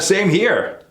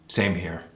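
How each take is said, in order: First: The pitch rises at the end. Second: The pitch falls at the end. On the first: Agreeing happily about something good. "If it's positive, ... It goes up" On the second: Agreeing about something bad. "If it's negative, ... it goes down"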